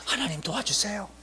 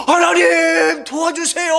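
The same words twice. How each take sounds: First: Soft, hushed prayer; quiet plea for help. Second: High, loud drawn-out plea; crying out in prayer. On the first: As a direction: ask God for help in a small voice. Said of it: "도와달라고". (작은 목소리로 드리는 기도) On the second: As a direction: shout to God for help, stretching it out. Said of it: "부르짖었다는 말이 뭐예요?". (크게 부르짖는 기도) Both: Retold or imitated.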